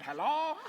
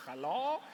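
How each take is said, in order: First: Hello? much higher and louder, rising; nervous squeaky phone hello; flustered caller. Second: Put-on a light Hungarian accent on Hello?; mock Hungarian telephone greeting. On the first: Retold or imitated. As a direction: caller unsure anyone is there. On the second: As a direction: imitate the Hungarian therapist answering, in a hint of Hungarian accent. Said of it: "with a Hungarian voice and goes".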